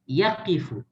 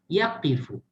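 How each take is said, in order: Both takes have the same delivery.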